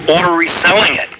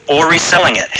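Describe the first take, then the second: No difference in how they are said.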